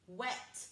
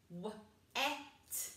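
First: Said in the usual way. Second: W-E-T as three separate sounds; chopped-up sounds. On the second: Shown as a demonstration. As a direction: chop W-E-T sound by sound, with gaps. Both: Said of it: "and chop it up".

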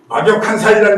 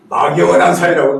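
First: 막역한 said with a clear final ㄱ, 막-역-한; correct pronunciation. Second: 막연한 with an ㄴ, as people wrongly say it; common mispronunciation. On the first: Shown as a demonstration. Teacher to the class, saying 막역한 the right way with a clear ㄱ. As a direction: give 막역한 its full ㄱ sound, not 막연. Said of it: "막연한 사이라고 그러더라고". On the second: Retold or imitated. Teacher mimicking how people wrongly say 막연한. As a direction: imitate the mix-up, 막연한 instead of 막역한. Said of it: "어떤 사람들은 가만히 들어보면".

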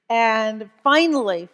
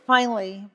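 First: "finally" slow and louder, stretched with relief; stretched relieved finally; drawn-out finally. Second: Said in the usual way. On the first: Shown as a demonstration. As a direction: lean long on "finally". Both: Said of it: "repeated for emphasis".

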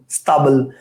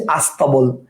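First: "স্তাবল" starting straight on s-t; no vowel before "স্তাবল"; original form. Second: "আস্তাবল" opening on a clear a; a before the s-t in "আস্তাবল"; added opening vowel. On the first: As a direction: say "স্তাবল" as sta-bol. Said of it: "স্তাবল না বলে আমরা". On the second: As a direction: say "আস্তাবল" as as-ta-bol. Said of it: "আমরা বলতেছি আস্তাবল". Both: Shown as a demonstration.

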